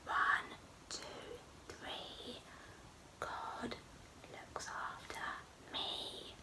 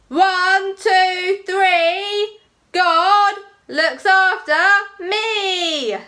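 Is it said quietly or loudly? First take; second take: quietly; loudly. First: It is said very quietly. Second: It is said very loudly.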